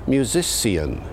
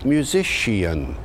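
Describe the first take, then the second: First: It uses the early Early Modern English pronunciation. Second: It uses the later Early Modern English pronunciation. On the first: This is how it was said around the start of the period. "early on in the period, people were pronouncing the word musician as musician" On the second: This is how it was said later in the period. "Later in the period, it had evolved into musician"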